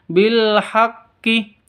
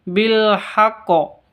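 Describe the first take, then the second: First: The final consonant is followed by an i vowel. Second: The final consonant is followed by an o vowel. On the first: "bukan bil haqqi" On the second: "atau bil haqqo, bukan seperti itu"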